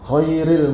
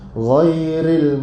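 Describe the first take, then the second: First: It begins with a voiceless rasping kh sound. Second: It begins with a voiced gargled gh sound. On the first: The speaker calls it wrong. "Dah jadi huruf kha pula" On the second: The speaker calls it right. "Dia kena Ghairil"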